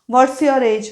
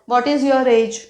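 First: What and is merge into one short syllable. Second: What and is are said as two words. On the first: "इथे व्हॉट्स your age असंही म्हणू शकतो" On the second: "व्हॉट इज"

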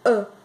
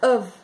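First: The word is reduced to a weak vowel. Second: The word is said in full with an f sound. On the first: "por nativos, eles pronunciam a" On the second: "a gente pronuncia of"

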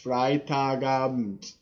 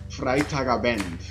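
First: The E in the last syllable is barely pronounced. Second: The E in the last syllable is fully pronounced. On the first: The speaker calls it right. "the E isn't really pronounced much" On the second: The speaker calls it wrong. "I'm saying that wrong"

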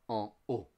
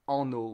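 First: The words are kept separate without linking. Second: The words are linked with an N sound. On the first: The speaker calls it right. "we say en eau" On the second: The speaker calls it wrong. "we don't say en eau"

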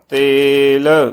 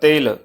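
First: The vowel is held long. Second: The vowel is cut short. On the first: The speaker calls it right. "ਸੋ ਇੱਥੇ ਇਹ ਲਘੂ ਧੁਨੀ ਦੇ ਵਿੱਚ ਉਚਾਰਨ ਨਹੀਂ ਹੋ ਰਹੀ" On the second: The speaker calls it wrong. "ਲਘੂ ਧੁਨੀ ਦੇ ਵਿੱਚ ਜੇ ਉਚਾਰਨ ਕਰਾਂਗੇ ਤਾਂ ਬਣੇਗਾ ਤੇਲ, ਸੋ ਇਹ ਇਸ ਦਾ ਗਲਤ ਉਚਾਰਨ ਹੋਵੇਗਾ"

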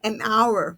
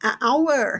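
First: An n sound links the article to 'hour'. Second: The article is a bare vowel before 'hour'. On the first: The speaker calls it right. "เราต้องใช้ and นะคะ ก็เป็น an hour" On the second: The speaker calls it wrong. "เพราะฉะนั้นเราใช้อะไม่ได้ค่ะ"

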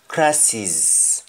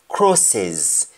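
First: The word is said in a Jamaican accent. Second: The word is said in a standard English accent. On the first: "the pronunciation for the word crosses in Jamaican, we say crosses" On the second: "That is English"

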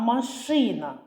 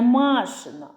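First: The stress is on the last syllable. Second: The stress is on the first syllable. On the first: It means a car. The speaker calls it right. "Звук І буде головним" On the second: It means something belonging to Masha. The speaker calls it wrong. "Не «машина»"

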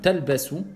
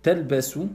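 No difference in how they are said.

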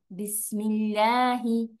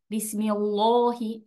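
First: The L sound is light and thin. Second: The L sound is heavy and dark. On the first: The speaker calls it right. "Esta lam del nombre de Allah es suave" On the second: The speaker calls it wrong. "hacen la lam del nombre de Allah grave"

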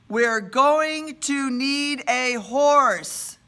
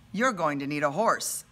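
First: It is said louder, slowly, word by word. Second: It is said at a normal pace and volume.

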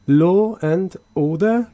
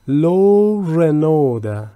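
First: No R sound comes between law and and. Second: An R sound links law to and.

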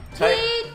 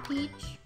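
First: The word is yelled loudly. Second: The word is said at normal volume. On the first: The speaker calls it right. "Peach was in all caps. You should have yelled that" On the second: The speaker calls it wrong. "You should have yelled that"

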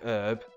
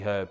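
First: The word starts with a silent h. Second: The word starts with an audible h. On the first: This is how most of the rest of the world says it. "We do not give it silent. So instead of saying herb" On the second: This is how it is said in England. "In England, we pronounce herb with a H"

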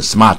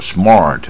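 First: The r is not curled back. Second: The r is strongly curled back. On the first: The speaker calls it wrong. "你不要念" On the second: The speaker calls it right. "你要念到那个卷舌才有那个味道"

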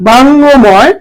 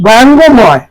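Both takes have the same delivery.

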